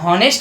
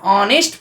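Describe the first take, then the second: First: The word begins with an h sound. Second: The word begins with a vowel sound. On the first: The speaker calls it wrong. "नहीं पढ़ते हैं" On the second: The speaker calls it right. "एच आपका silent होता है"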